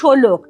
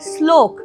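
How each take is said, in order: First: An o vowel separates the first two consonants. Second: The first two consonants are said as a cluster. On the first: "শয় লয়ের মাঝখানে স ও তারপরে লটা আসছে" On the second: "ও দিয়ে হতে পারে শ্লোক"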